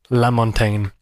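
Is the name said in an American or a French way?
American. The name is said the American way.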